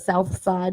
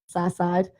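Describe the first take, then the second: First: It is said with a standard pronunciation. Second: It is said with a Pittsburgh pronunciation. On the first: "instead of" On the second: "we just don't pronounce all the letters in a word"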